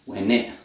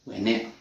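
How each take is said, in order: First: The T at the end is dropped. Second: The same.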